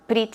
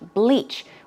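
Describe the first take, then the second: First: It sounds like bridge, with r and short i. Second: It sounds like bleach, with l and long ee. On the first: The speaker calls it wrong. "I did hear a lot of bridge, bridge, which sounds like a bridge" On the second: The speaker calls it right. "The correct pronunciation should be bleach"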